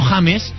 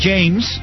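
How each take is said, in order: First: James is said with a Spanish J sound. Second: James is said with an English J sound. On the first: The speaker calls it wrong. "y no James" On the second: The speaker calls it right. "se dice James"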